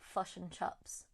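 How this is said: The vowels are closed off, in a New Zealand accent. "so people from New Zealand, like the vowel sounds are much more like closed off"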